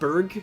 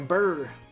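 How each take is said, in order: First: The name ends with a hard g sound. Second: The name ends without a g, drawled southern-style. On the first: "Hard G, I bet" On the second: "I don't know why I always do a southern accent"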